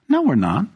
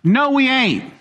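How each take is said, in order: First: It is said plainly, without extra force. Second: It is said with strong, forceful emphasis.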